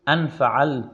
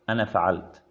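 First: The pronoun ends in a bare n sound. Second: The pronoun ends in n plus short a. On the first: "لهجة تسكن النون وتحذف الألف وصلا ووقفا" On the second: "يفتحون النون في الوصل ويحذفون الألف"

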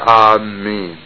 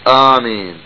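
First: The m is held long and doubled. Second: The m is short and single. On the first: People heading toward a place. The speaker calls it wrong. "وليس آمين" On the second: A request to answer a prayer. The speaker calls it right. "الصحيح آمين"

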